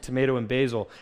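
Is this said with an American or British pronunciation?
American. It is said with an American pronunciation. It is the speaker's own native way of speaking. "as opposed to"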